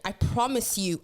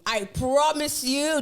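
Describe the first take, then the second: First: Said in the usual way. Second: "promise" stretched out slow, higher and louder; slow emphatic promise. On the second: Shown as a demonstration. Swearing to the girls listening, slow and emphatic. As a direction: lean hard and slow on "promise".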